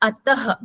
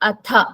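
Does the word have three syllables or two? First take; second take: three; two. First: The word ends with an extra breathy syllable. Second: The word ends cleanly without an extra syllable. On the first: The speaker calls it wrong. "It is not ataha" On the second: The speaker calls it right. "It is atha"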